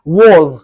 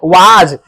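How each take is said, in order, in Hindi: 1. स्वर एक गोल हुआ 'o' ध्वनि है। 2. स्वर एक खुला, बिना गोल हुआ 'ah' है। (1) "माउथ को राउंड करो" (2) "ये वाज नहीं है"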